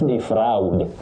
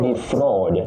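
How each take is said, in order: First: The vowel is not a long back O. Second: The vowel is a long low back O. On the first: The speaker calls it wrong. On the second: The speaker calls it right. "A and U combine to form the long low back sound O"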